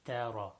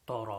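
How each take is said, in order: First: The t is light; the r is full. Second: The t is heavy, with a full mouth. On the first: The speaker calls it right. "It should be tara" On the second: The speaker calls it wrong. "Ta is not full mouth, so it should not be pronounced tara"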